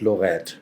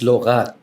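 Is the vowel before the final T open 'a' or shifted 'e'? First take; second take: shifted e; open a. First: The vowel before the final T shifts toward 'e'. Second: The vowel before the final T stays open 'a'. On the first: The speaker calls it wrong. "not Lorette" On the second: The speaker calls it right. "that's the A remains unshifted"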